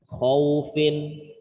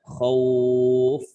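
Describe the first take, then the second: First: The word ends with its final vowel ending sounded. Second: The word ends abruptly without its final ending.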